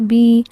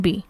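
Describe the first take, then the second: First: The vowel is drawn out long. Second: The vowel is kept short. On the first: "ये हल्का हल्का सा लंबा करना" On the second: "अगर हरफ मद्दा नहीं है तो उनको बिल्कुल भी नहीं खींचा जाएगा"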